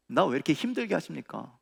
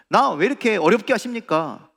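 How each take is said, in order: First: Held-back, plaintive question; subdued complaint. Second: Raised, higher-pitched complaint; loud protest. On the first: Troubled believer asking God why it is hard, subdued complaint. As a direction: complain to God without raising the voice. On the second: Troubled believer demanding why God makes it difficult, loud protest. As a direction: protest loudly to God, voice pushed up. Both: Acted.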